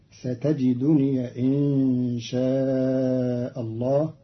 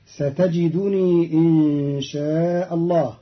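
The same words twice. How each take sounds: First: ستجدني as satajiduniya before إن; slow recitation, ending ستجدني on a short ya; fatha on the ya. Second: ستجدني as satajidunii, long i before إن; slow recitation, stretching the end of ستجدني; still ya, lengthened. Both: Shown as a demonstration. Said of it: "بفتح ياء الإضافة".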